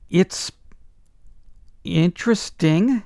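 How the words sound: It is said in a puzzled, dry tone. The song is strange and bewildering. "I say it that way"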